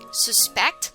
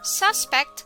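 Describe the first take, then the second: First: The stress is on the second syllable. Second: The stress is on the first syllable. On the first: It means to believe something is true. "to believe that something is true" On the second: It names a person thought guilty of a crime. "someone who the police believe may have committed a crime"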